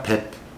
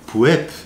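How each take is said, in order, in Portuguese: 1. A sílaba é encurtada, com a vogal reduzida. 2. A sílaba é lida com a vogal plena. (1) "Quando você fala rápido, vai ficar pep" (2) "Lendo a vogal aí, puep"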